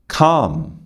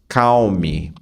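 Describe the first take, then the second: First: The L is silent and it ends on M. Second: The L is sounded and the M gets a vowel. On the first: The speaker calls it right. "o L não aparece. Então você não fala calme, você fala calm" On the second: The speaker calls it wrong. "você não fala cal. Calme. Calme. Não. O M não tem som de mi"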